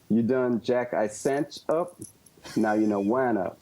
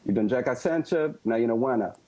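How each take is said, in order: First: The phrase is said slowly. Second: The phrase is said fast.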